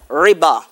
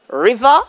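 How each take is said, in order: First: The middle consonant is a b sound. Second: The middle consonant is a v sound. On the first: "being pronounced as riba" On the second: "alteration of the V sound to be"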